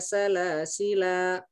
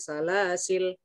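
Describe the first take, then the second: First: The final l carries a lengthened vowel. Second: The word ends on a bare l consonant. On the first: "dipanjangkan lamnya dua harokat" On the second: "dibaca sukun salasil"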